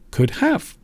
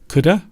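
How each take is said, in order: First: Both words are said in full, could have. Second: It is shortened to one word, coulda.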